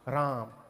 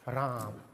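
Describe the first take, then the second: Both takes have the same delivery.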